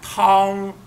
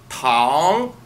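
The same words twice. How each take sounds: First: The pitch stays high and level throughout. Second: The pitch rises from mid to high. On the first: It means soup. "if we read it in the first tone, like tang, that means tang. Soup" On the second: It means sugar. "But when we speak it in the second tone, tang, that is tang. Sugars"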